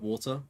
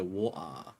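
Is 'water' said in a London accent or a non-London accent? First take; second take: non-London; London. First: The word is said in a non-London accent. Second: The word is said in a London accent. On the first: "prove we don't say it like that" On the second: "Some like London people go water like that"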